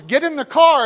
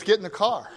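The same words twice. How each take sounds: First: Firm order. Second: Said in the usual way. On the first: Retold or imitated. Father ordering injured worker.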